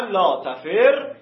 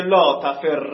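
First: Slow, loud «تفر» ending in a separated -rre; second vowel option. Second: Loud, clear «تفر» ending in -rra; first vowel option. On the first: Teacher showing the second of two readings, «تفر» slowly ending in -rre. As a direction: say «تفر» as taferre, doubled r and short e. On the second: Teacher showing the first of two readings, «تفر» loudly ending in -rra. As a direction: say «تفر» as taferra, doubled r and open a. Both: Shown as a demonstration.

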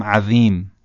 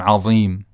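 First: "عظیم" with a thin, light dhāl in place of ظ; wrong, with dhāl. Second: "عظیم" with a heavy, emphatic ظ; correct, with ẓāʾ. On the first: Teacher demonstrates the mistake, "عظیم" with light dhāl. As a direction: say "عظیم" as if spelt عذیم. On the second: Teacher demonstrates the right way, "عظیم" with heavy ẓāʾ. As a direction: darken and thicken the ظ in "عظیم". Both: Shown as a demonstration.

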